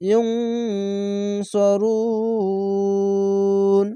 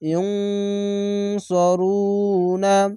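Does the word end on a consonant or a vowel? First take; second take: consonant; vowel. First: The word stops on a lengthened final consonant. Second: The word ends on a final vowel sound. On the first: The speaker calls it right. "রুন বলে শেষ অক্ষর সাকিন দিয়ে তিন আলিফ টেনে পড়বেন" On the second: The speaker calls it wrong. "না না বলে"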